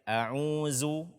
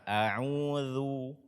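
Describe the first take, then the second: First: The last consonant is a buzzing z sound. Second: The last consonant is a soft voiced th. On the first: The speaker calls it wrong. "menggantinya dengan zai" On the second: The speaker calls it right. "bacalah dengan benar"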